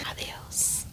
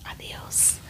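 No difference in how they are said.

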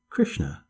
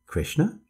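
First: KRISHNA said low, falling at the end; name repeated as statement. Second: KRISHNA higher, rising at the end; name repeated as question. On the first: Repeats the child's name to herself. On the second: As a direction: turn "Krishna" into a questioning echo. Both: A narrator's reading.

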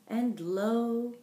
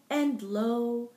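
Both takes have the same delivery.

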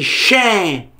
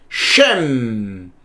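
First: "Shem" said as "shen", nasal open ending; open-mouth final N. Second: "Shem" low, with the final m hummed long; closed-mouth final M. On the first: Teacher contrasting the word for tooth, open nasal ending. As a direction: end "Shem" open, lips never closing. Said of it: "Diferente de Shem, que é dente". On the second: Teacher contrasting mem with nun, long closed-lip m. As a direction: close the lips on "Shem" and let the m ring. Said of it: "Boca fechada". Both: Shown as a demonstration.

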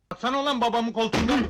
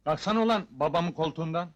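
First: Louder, higher, faster bark; angry shouted order. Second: Said in the usual way. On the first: Acted. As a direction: shout the repeated order, rushing it. Emri bağırarak tekrarlıyor. (öfkeyle, hızlıca bağırarak)

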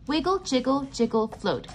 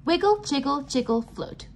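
No difference in how they are said.

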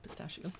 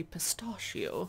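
First: Said in the usual way. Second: Pistachio said posh as pis-TAH-shio with a long ah; mock-posh pis-TAH-shio, long broad ah; posh pronunciation. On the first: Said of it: "Some people say pistachio". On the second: Shown as a demonstration. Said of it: "they sound very posh".

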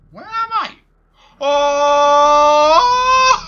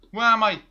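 First: Very high shrieking cry; terrified scream. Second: Loud, confused shout; panicked. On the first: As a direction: scream it in terror. Scared while lost. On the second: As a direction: demand it, panicking. Lost after game lag. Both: Real, not acted.

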